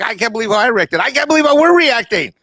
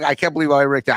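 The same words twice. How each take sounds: First: Higher, louder excited disbelief; growing amazement. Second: Said in the usual way. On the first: Retold or imitated. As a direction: pitch climbing higher into disbelief. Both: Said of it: "I'm like".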